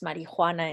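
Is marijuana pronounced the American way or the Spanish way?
Spanish. The word is pronounced with Spanish sounds. "I pronounce marijuana in the Spanish way"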